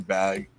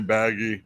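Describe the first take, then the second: First: The name is said with one syllable. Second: The name is said with two syllables. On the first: The speaker thinks the listener is a noob. "if someone's, you know, a noob or doesn't know anything, I'll just say bag" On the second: The speaker thinks the listener is really cool. "if I think somebody's really cool, I'll say baggy"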